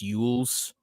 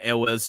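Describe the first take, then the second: First: The name is given a Welsh pronunciation. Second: The name is given an English pronunciation. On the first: "in the Welsh pronunciation it's" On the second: "I'm still gonna call him"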